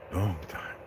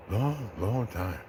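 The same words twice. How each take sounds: First: Lightly voiced ape Caesar, softer, answering low; a hint of weary Caesar, quiet; Caesar's reply. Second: Lightly voiced Caesar, soft and slow, stretching each long; Caesar's slow reply. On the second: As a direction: drag out long, long as tired Caesar. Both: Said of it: "Caesar asks".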